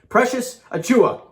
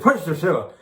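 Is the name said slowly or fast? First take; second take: slowly; fast. First: The name is said slowly and carefully. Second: The name is said fast and rushed.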